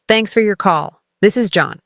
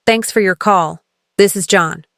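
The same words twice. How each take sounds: The two takes are said the same way.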